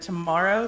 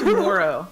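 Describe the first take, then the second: First: The middle vowel sounds like 'mar'. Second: The middle vowel sounds like 'more'. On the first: "instead of tomorrow" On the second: "Or tomorrow instead of tomorrow"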